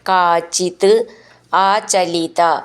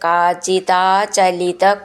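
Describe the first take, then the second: First: The words are said separately, each one apart. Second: The words are run together into one chain.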